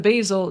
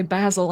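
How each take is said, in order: First: Basil said the speaker's own way, BAY-zil; plain American basil, long a; the normal basil, as the speaker says it; usual basil. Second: Basil said BAZ-il with a short a; lightly imitated British basil. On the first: Shown as a demonstration. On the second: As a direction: mimic the other way of saying basil. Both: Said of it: "instead of basil, they say basil".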